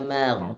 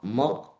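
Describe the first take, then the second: First: The vowel is thin and open. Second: The vowel is thick and rounded. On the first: The speaker calls it right. "bacanya magh" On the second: The speaker calls it wrong. "mog mog bukan"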